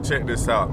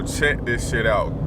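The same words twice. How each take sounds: First: Said in the usual way. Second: Slow drawn-out. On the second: Real, not acted. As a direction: stretch each word out slowly. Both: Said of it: "I'm trying not to cuss no more".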